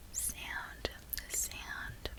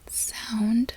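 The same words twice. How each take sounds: First: Australian "sound", vowel drawn toward "sand"; Australian accent. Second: American "sound" with a full OW vowel; American accent. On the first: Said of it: "saying the word sand". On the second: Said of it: "the way I would in my American accent". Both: Shown as a demonstration.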